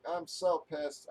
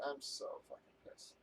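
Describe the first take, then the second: First: Said in the usual way. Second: Whispered under the breath, voice dropped away; muttered in a fed-up whisper; seething whisper. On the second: Real, not acted. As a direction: hiss it out to himself, barely voiced. Repeats his complaint, then whispers it.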